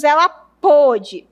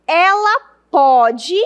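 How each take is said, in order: First: PÔDE with a closed "ô"; emphatic closed-o "pôde"; past-tense closed O. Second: PODE with an open "ó", stretched; slow, emphatic open-o "pode"; present-tense open O. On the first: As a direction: round and close the first vowel of "pôde". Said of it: "no passado". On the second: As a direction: open the first vowel of "pode" wide, like "póde". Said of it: "é presente". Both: Shown as a demonstration.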